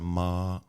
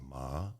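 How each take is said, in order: First: The pitch stays level and flat. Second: The pitch rises like a question. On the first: "flat sound ma" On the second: "The second tone is rising ma"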